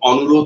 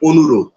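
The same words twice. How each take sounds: First: The first vowel is an open aw sound. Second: The first vowel is a closed o sound. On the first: The speaker calls it wrong. "নয়" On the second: The speaker calls it right. "সেজন্য এটা ওকারান্ত হয়ে গেল। অনুরোধ হলো।"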